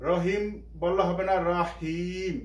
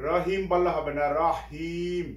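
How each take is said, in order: The two takes are said the same way.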